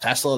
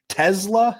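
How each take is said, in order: First: The middle consonant is a hissing S sound. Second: The middle consonant is a buzzing Z sound. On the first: The speaker calls it wrong. "I say how it's spelled" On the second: The speaker calls it right. "So I guess the S is a Z"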